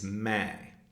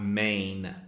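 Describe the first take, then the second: First: It ends with a nasalized vowel, no N. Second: It ends with a full N consonant. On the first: The speaker calls it right. "it's May" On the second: The speaker calls it wrong. "It's not main"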